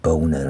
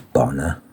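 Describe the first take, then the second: First: The first vowel is long, as in 'bone'. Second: The first vowel is short, as in 'on'. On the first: The speaker calls it wrong. "It's not Boner" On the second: The speaker calls it right. "I think it's Bonner"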